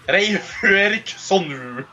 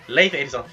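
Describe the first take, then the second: First: The name is said in a Japanese accent. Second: The name is said in its native accent. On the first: The speaker calls it wrong. "how are the Japanese going to pronounce this?" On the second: The speaker calls it right. "Leif Erikson is actually how it's pronounced"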